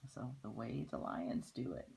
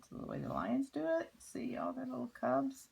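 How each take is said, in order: First: Said in the usual way. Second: Much higher and faster, thrilled; excited and high. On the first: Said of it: "repeated line". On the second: Shown as a demonstration. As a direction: say it like an amazed child. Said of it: "repeated higher, faster".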